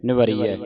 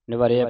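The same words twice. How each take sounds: First: ਨਿਵਰੀਐ with long ee before the final ai; louder ਨਿਵਰੀਐ, clear long ee in ਰੀ. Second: ਨਿਵਰਿਆ with a short e-like vowel before the ending; common misreading. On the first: Shown as a demonstration. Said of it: "ਉਹ ਬਿਹਾਰੀ ਬਣਨੀ ਹੈ". (ਨਿਵਰੀਐ ਬਿਹਾਰੀ ਨਾਲ) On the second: Retold or imitated. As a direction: say ਨਿਵਰਿਆ without the long ee. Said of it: "ਨਿਵਰਿਆ ਪੜ੍ਹਦੀ ਹੈ". (ਨਿਵਰਿਆ ਬਿਹਾਰੀ ਤੋਂ ਬਿਨਾਂ)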